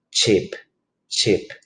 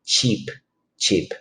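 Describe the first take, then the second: First: Cheap with too short a vowel, like "chip"; mispronounced cheap. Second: Cheap with a tense "ee" vowel; corrected cheap. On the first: Real, not acted. Teacher slipping while modelling a word, cheap as "chip". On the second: Shown as a demonstration. Teacher correcting herself for students, cheap with "ee". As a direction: say cheap as "cheep", not "chip". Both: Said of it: "Perdón, lo estoy pronunciando mal".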